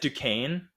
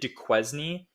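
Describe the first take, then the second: First: The name is not sounded out letter by letter. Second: The name is sounded out as it is spelled. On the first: The speaker calls it right. "it's Duquesne, and I didn't know" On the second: The speaker calls it wrong. "I pronounced it Duquesne for the longest time"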